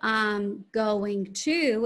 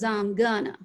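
First: Each word is said fully and separately. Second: The words are chopped together into a reduced form. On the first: "instead of I'm going to" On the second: "it becomes I'm gonna"

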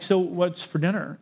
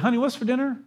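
First: It sounds tense and irritated. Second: It sounds calm and sweet.

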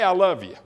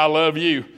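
First: It is said warmly and affectionately. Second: It is said flatly and dismissively. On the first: "sometimes Bev and I can be talking to each other and we're apart and I go" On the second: "And then there's times we're together and I go"

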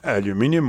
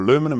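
First: The word is pronounced the Australian way. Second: The word is pronounced the American way.

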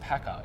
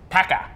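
First: The word is said plainly, without extra emphasis. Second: The word is said with strong, energetic emphasis. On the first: The speaker calls it wrong. "it's not just Packer" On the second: The speaker calls it right. "you've got to say it with a bit of emphasis"

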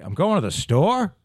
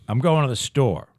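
First: The voice rises at the end. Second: The voice falls at the end.

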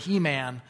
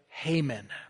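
First: The name sounds like 'He-Man'. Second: The name does not sound like 'He-Man'. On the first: The speaker calls it wrong. "if I kept using the word He-Man, that it would throw you off" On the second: The speaker calls it right. "I'm going to use the pronounce it this way"

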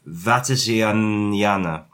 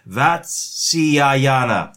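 First: The name is pronounced loosely and less accurately. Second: The name is pronounced carefully and more accurately. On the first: The speaker calls it wrong. "I can do a better job of pronouncing that name" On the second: The speaker calls it right. "that's right"

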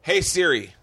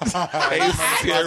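First: It is said in the speaker's own accent. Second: It is said imitating the friend's accent.

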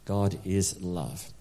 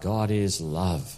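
First: The words are said plainly, without much feeling. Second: The words are said with more feeling and energy. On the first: The speaker calls it wrong. "Would you say those three words with me" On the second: The speaker calls it right. "Let's say it again with a bit of feeling"

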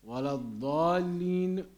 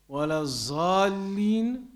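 First: The last word begins with an emphatic d sound. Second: The last word begins with a z sound. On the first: Those who have gone astray. The speaker calls it right. "means those who have gone astray" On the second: Those who have slipped up. The speaker calls it wrong. "changing the dad to a zai changes the meaning"

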